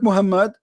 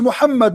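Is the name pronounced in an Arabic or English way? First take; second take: English; Arabic. First: The name has an anglicized English pronunciation. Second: The name has a native Arabic pronunciation. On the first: The speaker calls it wrong. "not Muhammad" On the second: The speaker calls it right. "and yet it is Muhammad"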